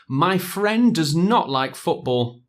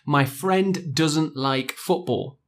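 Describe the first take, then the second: First: 'Does not' is said as two full words. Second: 'Does not' is contracted to 'doesn't'.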